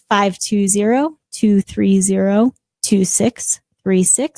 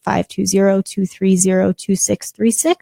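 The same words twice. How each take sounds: First: The number is said more slowly. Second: The number is said at normal pace.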